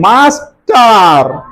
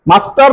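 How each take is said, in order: First: The middle consonants are split by a vowel. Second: The middle consonants are run together as a cluster. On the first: The speaker calls it right. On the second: The speaker calls it wrong.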